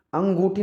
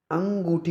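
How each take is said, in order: First: अंगूठी with an o-like middle, "an-go-thi"; wrong pronunciation. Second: अंगूठी with long oo, "an-goo-thi"; correct pronunciation. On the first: Teacher shows the mistake, अंगूठी as "an-go-thi". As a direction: round अंगूठी towards "go". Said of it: "नहीं होती". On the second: Teacher gives the right form, अंगूठी as "an-goo-thi". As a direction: give अंगूठी a clear goo. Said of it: "होती है". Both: Shown as a demonstration.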